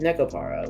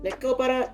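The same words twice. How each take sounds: First: The second A is reduced to a schwa. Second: The second A is a full, clear vowel. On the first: This is how it is casually said in English. "I'm like schwaing ... the second A" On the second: This is the technically correct form. "technically Neko Para"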